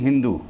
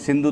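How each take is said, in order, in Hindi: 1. शब्द की शुरुआत h ध्वनि से होती है। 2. शब्द की शुरुआत s ध्वनि से होती है। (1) "तो वो बोलेंगे हिंदू" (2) "जैसे कोई आप बोलेंगे भाई सिंधु"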